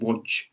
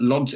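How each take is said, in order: First: The name is said with Polish sounds. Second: The name is said with English sounds. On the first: The speaker calls it right. "I think it's pronounced Łódź" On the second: The speaker calls it wrong. "I'm going to mispronounce Lodz"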